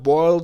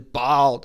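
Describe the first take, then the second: First: It is said with a standard 'oi' vowel. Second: It is said with a Texan 'aw' vowel. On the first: "instead of boiled" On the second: "This is how it's said in Texas"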